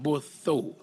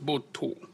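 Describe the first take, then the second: First: The middle consonant is a 'th' sound. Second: The middle consonant is a plain 't' sound. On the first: The speaker calls it wrong. "some of you might pronounce it Botho" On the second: The speaker calls it right. "but it's Boto"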